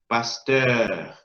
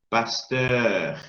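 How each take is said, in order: The two takes are said the same way.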